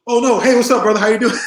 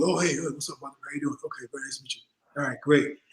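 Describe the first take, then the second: First: Loud, high-pitched retold hello; enthusiastic greeting. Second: Soft, indifferent mock pleasantries; distracted, brushed-off greeting. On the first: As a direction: imitate sudden delighted recognition, big and loud. Acted warmer greeting after proper introduction. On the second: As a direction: imitate a polite brush-off, very quietly. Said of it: "he didn't really focus on it".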